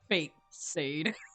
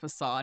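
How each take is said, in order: First: The word is said as fake-sade. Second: The word is said as fuh-sahd.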